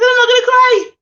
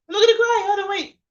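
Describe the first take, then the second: First: Real tears breaking through a loud, high protest; holding back tears. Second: High, tearful, trying to steady herself; real tears, pulling it back together; fighting tears. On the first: To her live viewers, grieving her mentor, voice breaking into tears. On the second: To her viewers, trying to stop crying, high and tearful. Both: Real, not acted. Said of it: "I'm gonna get emotional".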